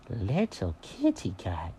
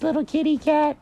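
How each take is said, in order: First: Low, slow, soft offended echo; stung, drawn-out quiet query; affronted cat. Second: Very high cartoon rabbit voice; high-pitched brush-off; dismissive bunny. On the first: Acted. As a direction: repeat it slowly, dropped low in disbelief. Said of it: "how rude do you have to be". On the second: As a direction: condescend in a squeaky high register. Mary dismisses Jenkins.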